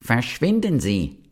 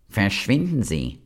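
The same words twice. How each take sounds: First: Higher, hammed-up shout of Verschwinden; the toadstool yells again, pitched up; mock shout. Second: Venomous. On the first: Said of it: "schrie der Giftpilz noch einmal". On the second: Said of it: "sagte giftig". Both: A narrator's reading.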